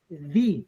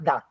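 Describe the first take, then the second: First: The word is said with a long 'ee' vowel. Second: The word is said with a short 'uh' vowel. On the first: It is the form used before a vowel. The speaker calls it right. "When the is followed by a vowel, the the is pronounced as the" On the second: It is the form used before a consonant. The speaker calls it wrong. "not the"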